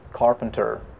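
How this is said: It is said with clear R sounds. "What about American R sound?"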